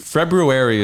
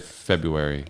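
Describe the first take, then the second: First: The first R sound is clearly pronounced. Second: The first R sound is left out. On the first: This is the technically correct form. "February is technically what it is" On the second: This is how most people say it. "most people just say February. They they get rid of that R"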